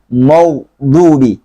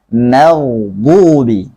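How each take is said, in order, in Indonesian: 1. Konsonan pertama itu tebal dan berat. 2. Konsonan pertama itu tipis dan ringan. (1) "Mim jangan ikut-ikutan jadi tebal" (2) "Yang tebal hanya ghainnya doang"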